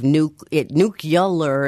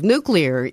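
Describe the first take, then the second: First: The word is said like 'new-cue-lar'. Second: The word is said like 'new-clear'. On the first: The speaker calls it wrong. "another how many years of nuclear instead of nuclear" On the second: The speaker calls it right. "Just get the word right"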